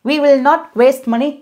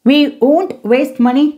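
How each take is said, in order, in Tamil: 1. "will not" என்பது இரண்டு முழு சொற்களாகச் சொல்லப்படும். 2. "will not" என்பது "won't" என சுருக்கப்படும். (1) "இப்படியும் சொல்லலாம்" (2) "இந்த will not இதை நம்ம சுருக்கி எப்படி சொல்லலாங்க?"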